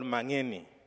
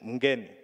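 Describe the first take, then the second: First: An A vowel follows the M. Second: The M runs straight into the N. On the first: "In Uganda, we have the version called Mangeni. We just add the A" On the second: "the last name"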